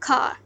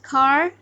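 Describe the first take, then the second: First: The final R sound is dropped. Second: The final R sound is pronounced. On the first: "The Britishers wa- uh, will pronounce it hard and car" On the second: "in American, the rhotic R sound is used and they will pronounce it car"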